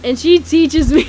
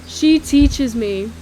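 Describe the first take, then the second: First: Loud, higher, about to crack up; breaking into laughter. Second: Slow, loud, drawn-out words; slow retake. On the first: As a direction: lose it laughing as the words end. Cracks up telling the story. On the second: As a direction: get it out slowly after a laughing fit. Slow retake after laughing fit. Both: Real, not acted.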